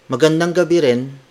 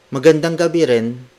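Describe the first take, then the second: Both takes have the same delivery.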